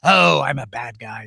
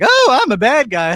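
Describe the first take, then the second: First: It is said in a rough, gravelly voice. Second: It is said in a plain, smooth voice.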